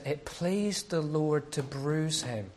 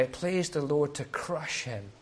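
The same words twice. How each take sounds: First: Slow, solemn reading of "It pleased the Lord to bruise him."; scripture reading. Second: Said in the usual way. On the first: Acted. Preacher reading Isaiah to the church, slow and solemn. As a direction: read it slowly like holy writ.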